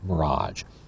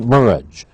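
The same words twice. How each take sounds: First: The stress is on the second syllable. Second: The stress is on the first syllable. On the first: This is the current French-like form. "instead of mirage" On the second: This may be a future anglicized form. "Maybe in a hundred years it'll be mirage"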